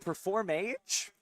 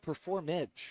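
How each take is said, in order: First: It sounds like two separate words, perform and age. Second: It sounds like one blended word, performage. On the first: The speaker calls it wrong. "It's not even Perform Age" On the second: The speaker calls it right. "It's Performage"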